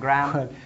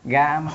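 First: The word is said with an r sound. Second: The word is said without an r sound. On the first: This is the more educated pronunciation. "some well-educated people say gram" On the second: This is the easier everyday pronunciation. "It's easy for people to say gam"

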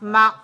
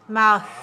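First: The throat closes, cutting the word short. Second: The throat stays open and the word flows. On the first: The speaker calls it wrong. "this is wrong. Watch me if I do like this. ... Then I'm closing here" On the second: The speaker calls it right. "but I keep it open. Mouth. Very nice"

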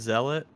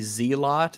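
First: The first syllable sounds like 'zel'. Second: The first syllable sounds like 'zee'. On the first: The speaker calls it right. "instead of Zealot" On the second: The speaker calls it wrong. "people would say Zealot instead of"

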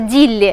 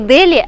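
First: The name is said the Hindi way. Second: The name is said the Russian way. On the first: Locals will understand it for sure. The speaker calls it right. "На хинди столица называется Дилли" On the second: Locals who speak no English may not understand it. The speaker calls it wrong. "я вам советую говорить не Дели"

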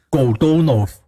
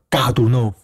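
First: The first vowel sounds like 'o'. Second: The first vowel sounds like 'a'. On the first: This follows the written spelling. The speaker calls it wrong. "你写是写，俄文也是写啊，就是果多诺夫" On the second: This is how Russians actually say it. The speaker calls it right. "因为重音的改变，你就变成嘎多诺夫"

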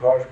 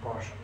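First: The word begins with a b sound. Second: The word begins with a p sound. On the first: "Они Паш говорят. Даже если пишут на мягком П, у них звучит на твердом Б" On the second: "Это мы говорим Паш"

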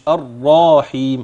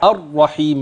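First: The vowel after the r is long. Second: The vowel after the r is short. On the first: The speaker calls it wrong. "مش الراحيم" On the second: The speaker calls it right.

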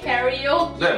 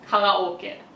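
First: It sounds like kyari-oh-kay, with gliding vowels. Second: It sounds like ka-ra-o-ke, with plain vowels. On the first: "英語でキャリオーケーみたいな" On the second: "ドイツ語で発音するとカラオケだから"

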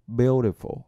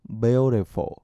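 The two takes are said the same way.

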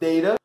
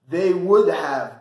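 First: Would have shrinks to a short da sound. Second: Would have is said in full.

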